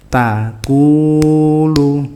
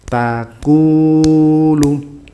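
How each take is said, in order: No difference in how they are said.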